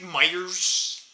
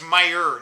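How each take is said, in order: First: The word ends with an added s sound. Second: The word ends without any s sound. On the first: This is how local people say the store name. The speaker calls it wrong. "they put S's on everything" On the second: This is the store's actual name. The speaker calls it right. "it's Meyer, not Myers"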